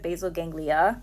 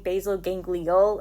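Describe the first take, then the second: First: The second word ends with a vowel sound. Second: The second word ends with an L sound. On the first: The speaker calls it right. "instead of" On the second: The speaker calls it wrong. "she was saying basal ganglial encephalitis instead of"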